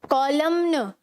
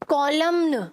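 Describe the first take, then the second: Both takes have the same delivery.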